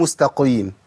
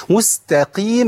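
First: مستقيم with thick, darkened vowel after ق; over-heavy qaf. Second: مستقيم with a light, clean ee after ق; slow, higher-pitched مستقيم, long pure ee; lowered qaf. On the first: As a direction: wrongly puff up the qi in مستقيم. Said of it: "ما ينفعش أقول مستقيم". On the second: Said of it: "القاف هنا مكسورة". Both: Shown as a demonstration.

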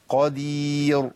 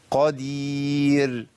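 First: "قدير" slow, with the final ra wrongly thickened; lips-forward heavy ra. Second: "قدير" drawn out slowly with a thin ra; light final ra. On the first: Teacher showing the error to students, heavy final ra. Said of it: "الفم بيتحرك للأمام". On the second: Teacher modelling the ya shape into ra, light final ra. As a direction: hold the long ya shape right into the ra of "قدير". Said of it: "هناخد هيئة الياء ونكمل بيها الراء". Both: Shown as a demonstration.

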